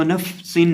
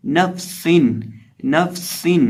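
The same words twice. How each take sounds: First: नफसिन with a long फ dragging before the स; wrongly drawn-out fa. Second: नफसिन with a brief फ and sharp स; whistled seen. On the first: Teacher showing what to avoid, stretched फ in नफसिन. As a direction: overhold the फ in नफसिन. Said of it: "इसको नफसिन नहीं पढ़ना". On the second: Teacher giving the correct reading, whistled स in नफसिन. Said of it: "सीन में हम सीटी की आवाज़". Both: Shown as a demonstration.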